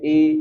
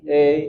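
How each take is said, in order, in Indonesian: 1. Vokal ini adalah bunyi ee yang penuh. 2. Vokal ini condong ke bunyi eh. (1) "Betul-betul dia bunyi I" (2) "nanti dia melenceng ke E"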